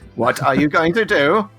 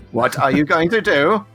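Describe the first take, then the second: First: It is said in a Dalek voice. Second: The same.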